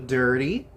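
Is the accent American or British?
American. It is said in an American accent. "no inglês americano"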